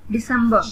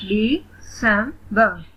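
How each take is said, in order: First: Said in the usual way. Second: "दिसंबर" very slowly in three beats; split into syllables. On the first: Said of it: "read the word". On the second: Shown as a demonstration. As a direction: pause between the syllables of "दिसंबर". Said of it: "split in the syllables". ("दिसंबर" को धीरे, तीन हिस्सों में तोड़कर)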